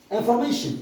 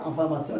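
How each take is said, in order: First: "Information." said the English way, in-for-MAY-shun; "Information." with an English ay and sh sound; English pronunciation. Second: Said in the usual way. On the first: Shown as a demonstration. Teacher giving the English word to pupils, "Information." in English pronunciation. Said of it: "C'est en anglais". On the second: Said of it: "En anglais, on dit quoi?".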